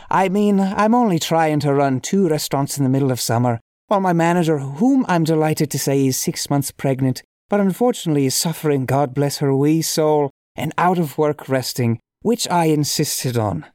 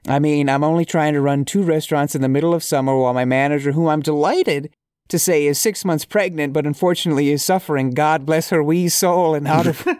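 First: Reading aloud in a lightly put-on Irish accent; a hint of hammy, amateur Irish brogue; awful Irish accent. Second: Said in the usual way. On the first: Shown as a demonstration. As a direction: try a little bad Irish accent. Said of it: "awful accent". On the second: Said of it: "let me try and take that again".

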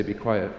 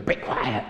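First: Said in the usual way. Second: Half-hearted, strained mock yell; mock scream. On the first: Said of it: "We say". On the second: Children telling each other off, mock screaming. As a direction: imitate squabbling kids' yell without full volume. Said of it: "So then they scream at each other".

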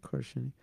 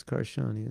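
First: Karshani as KAR-shuh-nee; short, weak middle syllable in Karshani; suggested pronunciation of Karshani. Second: Karshani as kar-SHAA-nee; open, stressed middle syllable in Karshani; doubted pronunciation of Karshani. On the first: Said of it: "isn't it Karshani". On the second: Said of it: "I don't think it's Karshani". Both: Shown as a demonstration.

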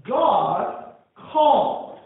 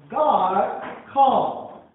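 No difference in how they are said.

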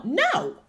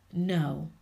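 First: "No" shot out much higher and louder; emphatic no. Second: Said in the usual way. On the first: Shown as a demonstration. Telling people off for good, a loud emphatic "No". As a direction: slam the word "No" down hard and high. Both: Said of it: "You just emphasizing that word no".

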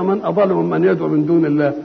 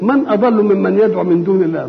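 First: Musing to oneself. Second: Rising challenge, a touch louder; challenging question. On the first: A preacher tells the listener to search himself, musing. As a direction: ponder the question inwardly. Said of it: "دور أنت كده". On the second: A preacher poses God's question to the crowd, as a challenge. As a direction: throw the question out to the listeners. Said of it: "يقول لك". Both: Shown as a demonstration.

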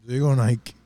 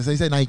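First: "Nike" said as Spanish NAI-ke. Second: "Nike" said as English NAI-kee. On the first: ("Nike" pronunciado nai-ke) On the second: ("Nike" en inglés, nai-ki) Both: Shown as a demonstration.

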